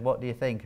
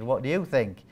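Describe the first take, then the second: First: Said in the usual way. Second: "you" leaned on, turning the question back; pushing the decision back to the nurse with "you" stressed. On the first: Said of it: "So the nurse rang me up and said". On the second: Retold or imitated. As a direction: throw it back with weight on "you". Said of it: "I said".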